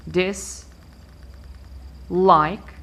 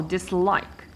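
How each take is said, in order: First: Dis, long pause, like; divided into syllables. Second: Dislike with the weight on "like"; stress on second syllable. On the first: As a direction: split it in two: "dis" and "like". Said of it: "I start by dividing my word". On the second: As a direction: lean on the "like" of dislike. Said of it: "I stress the second syllable". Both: Shown as a demonstration.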